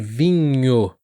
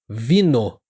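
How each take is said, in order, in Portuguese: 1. O NH é um som nasal palatal. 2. O NH soa como um N simples. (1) "ao invés de vinho" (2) "alguns alunos acabam também falando vinho, vino"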